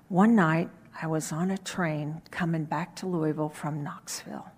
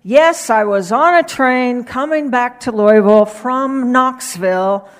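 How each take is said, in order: First: Quiet, hushed telling of a train story; low voice. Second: Loud, emphatic repeat of the line; louder voice. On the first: Preacher telling his sermon story in a low voice. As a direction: drop the voice way down and murmur it. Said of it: "in a very low voice". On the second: Preacher repeating his train story to the congregation, louder. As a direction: project it out, much louder. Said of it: "he said in a louder voice". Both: Retold or imitated.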